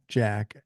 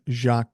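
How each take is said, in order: First: The name begins with a hard j sound. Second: The name begins with a soft zh sound. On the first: The speaker calls it wrong. "not Jack" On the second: The speaker calls it right. "It's pronounced like Jacques Cousteau"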